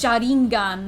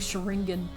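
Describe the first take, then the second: First: It is said with Japanese-style sounds. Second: It is said with American English sounds. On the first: "it's Sharingan" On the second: "for saying Sharingan"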